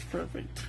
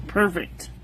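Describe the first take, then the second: First: Breathy whispered verdict. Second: Said in the usual way. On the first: Real, not acted. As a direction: whisper it to yourself, satisfied. Muttered verdict on paper sample.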